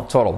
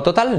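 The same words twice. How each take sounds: First: "total" with a tapped R for the T; American TOTAL. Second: "total" with a hard T, stressed at the end; Spanish-style TOTAL. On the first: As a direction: say "total" like "TOH-rol". ("total" como "tórol", con L oscura) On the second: ("total" a la española, con T clara) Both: Shown as a demonstration. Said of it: "No, total".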